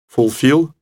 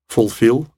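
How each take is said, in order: No difference in how they are said.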